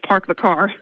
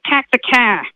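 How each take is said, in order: First: It is said in a standard accent. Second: It is said in a South Boston accent.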